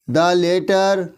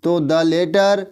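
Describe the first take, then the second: First: Said in the usual way. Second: Drawn-out, dictating each word; spelling out "the letter" slowly; slow dictation. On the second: Shown as a demonstration. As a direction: say it slowly so students can write.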